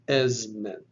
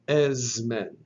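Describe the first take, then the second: First: The consonant before m is a voiced Z. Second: The consonant before m is a voiced Z.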